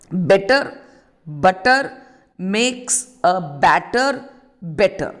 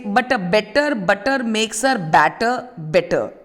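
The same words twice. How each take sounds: First: Slow, word by word. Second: Said in the usual way. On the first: Shown as a demonstration. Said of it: "So this is an alliteration". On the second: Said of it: "if I say".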